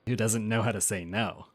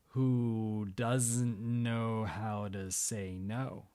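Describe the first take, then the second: First: It is said at normal speed. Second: It is said more slowly.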